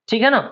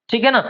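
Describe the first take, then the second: The two takes are said the same way.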